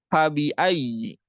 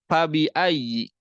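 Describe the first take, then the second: Both takes have the same delivery.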